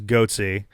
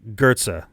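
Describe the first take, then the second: First: The first vowel sounds like 'oh'. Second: The first vowel sounds like 'er'. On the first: The speaker calls it wrong. "my brain absolutely read that as goatsy, which is not how this is pronounced" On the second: The speaker calls it right. "So gur"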